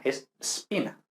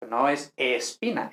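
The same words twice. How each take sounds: First: Spina starting straight on S, softer; no added E; correct S start. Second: Espina with the extra E; the wrong way with E; wrong added E. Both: Shown as a demonstration.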